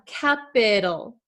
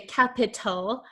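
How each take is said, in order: First: The middle consonant is a soft D-like flap. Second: The middle consonant is a crisp, true T. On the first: The speaker calls it right. "usually it's going to become something called a flap T, which sounds like a soft D" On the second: The speaker calls it wrong. "We're not going to say capital"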